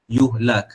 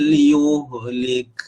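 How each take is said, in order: First: The vowel after the 'l' is 'a'. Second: The vowel after the 'l' is 'i'. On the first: The speaker calls it right. "Yang betulnya adalah yuhlak" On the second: The speaker calls it wrong. "tadi yang pertama tu saya sebut yuhlik. Salah ya"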